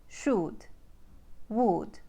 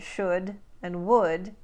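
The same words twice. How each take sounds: First: Ukrainian "should, would" with tight OO as in food; Ukrainian accent. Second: Said in the usual way. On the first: Shown as a demonstration. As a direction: say "should, would" as "shood, wood", Ukrainian style. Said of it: "should and would become oo". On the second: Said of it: "This means that should and would become oo".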